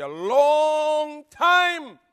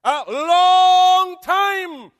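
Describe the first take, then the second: First: A long time drawn out slow and higher; slow emphatic repeat. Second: A long time shouted, very slow and high; crying shout. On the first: Preacher dwelling on the key words, slow. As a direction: stretch every word of A long time. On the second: Preacher crying out the key words to the church. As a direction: wail out A long time at full voice. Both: Acted. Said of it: "That's the word there".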